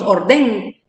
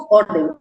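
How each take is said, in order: First: "orden" dicho como aguda, con la fuerza en "den"; acento mal puesto. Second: "orden" con la fuerza de voz en "or"; acento grave correcto. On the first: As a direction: carga la voz en la última sílaba de "orden". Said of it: "Nosotros no decimos orden". ("orden" con acento equivocado en la sílaba final) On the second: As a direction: carga la penúltima sílaba de "orden", OR-den. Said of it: "ahí es donde está la mayor fuerza de voz". ("orden" como palabra grave, acentuada en la primera sílaba) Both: Shown as a demonstration.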